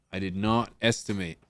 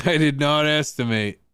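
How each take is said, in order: First: Said in the usual way. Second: Louder, higher emphatic declaration; raised voice, falling at the end; emphatic repeat. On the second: Real, not acted. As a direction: punch out "did not" high and loud.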